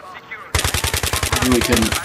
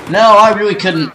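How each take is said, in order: First: Slow breathy whisper to himself. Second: Louder and higher, exasperated; loud exclamation. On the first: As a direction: whisper it slowly, defeated. Repeats it under his breath. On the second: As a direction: blurt it out loudly in dismay. Admits failed grenade, exclaims. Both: Real, not acted.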